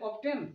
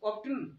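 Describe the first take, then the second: First: The t sound is pronounced in the middle. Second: The t sound is pronounced in the middle.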